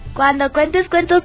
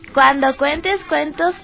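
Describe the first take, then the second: First: It is spoken at a quicker, normal pace. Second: It is spoken at a slower, deliberate pace.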